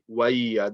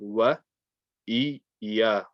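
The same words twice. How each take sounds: First: The sounds are rushed and run together. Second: Each sound gets the same, unhurried time. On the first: The speaker calls it wrong. "they just say wa iya. They kind of rush it" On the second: The speaker calls it right. "Make sure you pronounce each one, uh, and you give uh, each one the same amount of time"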